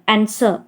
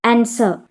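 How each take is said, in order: Both takes have the same delivery.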